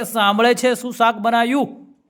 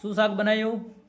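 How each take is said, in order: First: Higher, much louder, slow yell; mock shout straight into the wife's ear; shouted right in her ear. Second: Mock call to a wife who cannot hear; asking what's cooking, called out from a distance; calling out from afar. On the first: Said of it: "કાનમાં જઈને કહે છે". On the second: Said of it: "પચાસ ફૂટ દૂર રહીને બૂમ મારે છે".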